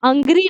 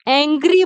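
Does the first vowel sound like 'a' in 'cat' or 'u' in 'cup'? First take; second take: u in cup; a in cat. First: The first vowel is a short 'u' sound. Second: The first vowel is an open 'a' sound. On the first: The speaker calls it wrong. "इसको अंग्री नहीं बोलते" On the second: The speaker calls it right. "तो एंग्री बोलते हैं"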